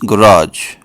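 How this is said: It is said in an American accent.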